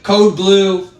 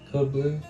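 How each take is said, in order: First: It is said loudly and forcefully. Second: It is said quietly and softly.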